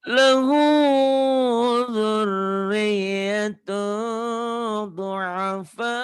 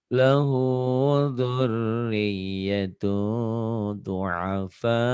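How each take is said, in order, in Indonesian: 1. Suaranya tinggi dan keras, hampir berteriak. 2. Suaranya rendah, tenang, dan artikulasinya jelas. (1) "Kalau tinggi kan" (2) "suaranya nggak tinggi, artikulasinya jelas"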